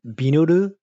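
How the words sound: It is said with a foreign, Japanese-style pronunciation. The speaker calls it wrong. "no one says it like that"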